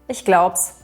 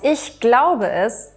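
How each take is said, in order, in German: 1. Die Wörter werden verkürzt und zusammengezogen. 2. Jeder Laut wird deutlich und einzeln gesprochen. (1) "wird dann Ich glaub's" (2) "aus Ich glaube es"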